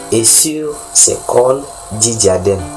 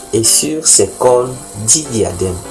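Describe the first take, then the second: The two takes are said the same way.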